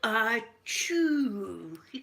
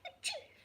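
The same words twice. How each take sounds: First: It is a big, loud, forceful sneeze. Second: It is a small, quiet, dainty sneeze.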